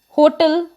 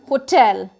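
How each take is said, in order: First: The stress is on the first syllable. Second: The stress is on the second syllable. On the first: The speaker calls it wrong. "Many of us pronounce it as hotel" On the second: The speaker calls it right. "it is hotel. That means the pressure is on word tel"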